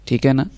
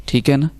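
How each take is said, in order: Both takes have the same delivery.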